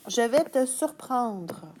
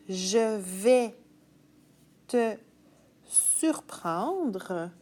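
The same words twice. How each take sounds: First: It is read at a normal speaking speed. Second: It is read slowly for writing it down. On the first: "je te lis une phrase à vitesse normale" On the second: "je te la relis plus lentement"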